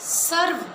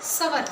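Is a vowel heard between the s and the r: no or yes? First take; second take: no; yes. First: The r closes the first syllable without a vowel. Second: An extra vowel splits the s and r. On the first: The speaker calls it right. "सवर नहीं" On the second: The speaker calls it wrong. "इसको सर्वनाम की बजाय सवर नाम बोलते हैं।"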